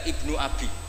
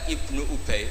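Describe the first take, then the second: First: The second word is pronounced Abi. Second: The second word is pronounced Ubay. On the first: It wrongly means son of my father. The speaker calls it wrong. "itu dibaca Ibnu Abi" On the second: It names the companion Ubay bin Ka'ab. The speaker calls it right. "ada orang itu baca Ibnu Ubay"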